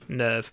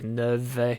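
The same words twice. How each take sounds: First: The final V is not strongly pronounced. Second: The final V is clearly pronounced.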